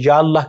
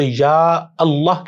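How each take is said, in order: First: The opening vowel of Allah is dropped. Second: The opening vowel of Allah is kept. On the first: The speaker calls it wrong. "ना कि" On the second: The speaker calls it right. "अलिफ लाम कभी भी नहीं गिरेगा"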